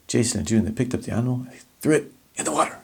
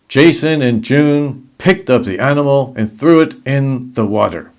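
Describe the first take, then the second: First: "Jason and June, they picked up the animal" hushed, softer and fast; soft and quick. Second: Louder, emphatic delivery. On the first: Teacher showing a soft, quick take of the sentence. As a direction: rush the sentence out softly, almost whispering. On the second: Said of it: "if you say it like this". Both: Shown as a demonstration.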